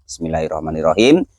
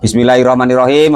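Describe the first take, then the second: First: It is said quietly, under the breath. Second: It is said aloud, clearly audible.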